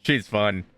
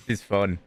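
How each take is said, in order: Both takes have the same delivery.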